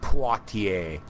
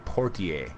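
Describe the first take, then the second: First: The name is said with a French-style pronunciation. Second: The name is said with an American pronunciation. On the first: The speaker calls it wrong. "not Poitier" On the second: The speaker calls it right. "I think it's actually pronounced Sidney Poitier"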